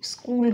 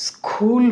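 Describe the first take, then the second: First: "স্কুল" with no puff after the k; unaspirated k. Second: "স্কুল" with a strong puff after the k; breathy burst on the k in "স্কুল", drawn out; wrongly aspirated k. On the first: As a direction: keep the k in "স্কুল" tight, like a g. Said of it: "স্কুল হবে". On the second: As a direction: say "স্কুল" as s-khool, k heavily aspirated. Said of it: "হবে না". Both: Shown as a demonstration.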